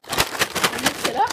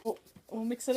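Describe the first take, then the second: First: Slow and loud, stretching it out; loud, drawn out. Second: Said in the usual way. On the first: Real, not acted. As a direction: announce it big and slow. Announcing mixing in wasabi.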